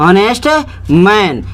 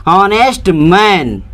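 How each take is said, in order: No difference in how they are said.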